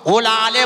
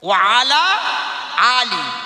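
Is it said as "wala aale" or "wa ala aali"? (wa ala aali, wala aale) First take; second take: wala aale; wa ala aali. First: The words run together as wala aale. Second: Each word is said clearly as wa ala aali. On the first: The speaker calls it wrong. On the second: The speaker calls it right.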